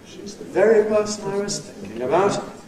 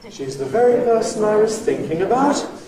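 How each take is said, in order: First: The pitch drops low, then rises slightly. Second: The pitch stays high and rises further. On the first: "we drop abruptly down to the lowest pitch and low rise from there" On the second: "the high bounce, that's a high head and a high rise"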